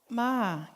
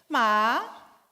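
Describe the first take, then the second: First: It carries the tone of the word 'come'. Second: It carries the tone of the word 'dog'. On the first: It means come. "Ma quer dizer venha" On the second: It means dog. "Ma quer dizer cachorro"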